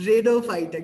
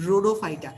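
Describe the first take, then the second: First: রেডোফাইটা loud, opening like English "red"; altered memory-aid pronunciation. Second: Said in the usual way. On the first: Shown as a demonstration. Tutor giving a memory trick, রেডোফাইটা loudly voiced as "red-o-phyta". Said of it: "মনে রাখবো". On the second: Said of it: "রোডোফাইটাটাও মুখস্থ করব না".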